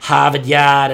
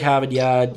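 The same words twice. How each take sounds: First: The Boston accent is broad and cartoonish. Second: The Boston accent is lazy and relaxed.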